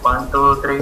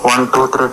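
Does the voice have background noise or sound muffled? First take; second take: muffled; background noise. First: The noise is gone but the voice sounds unclear. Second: Some background noise is heard behind the voice. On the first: "noise cancellation అవుతుంది కానీ కానీ voice అయితే పక్క క్లారిటీగా అయితే లేదు" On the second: "background అయితే sound sound వస్తుంది అనమాట కొద్దిగా, అంటే నాయిస్ క్యాన్సిలేషన్ లేదు"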